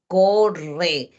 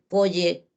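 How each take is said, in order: First: The r sound is a vibrating trill. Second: The r sound becomes a y-like sound. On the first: The speaker calls it right. "cuando tú dices rrr, tu lengua vibra" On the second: The speaker calls it wrong. "entonces mi lengua no vibra"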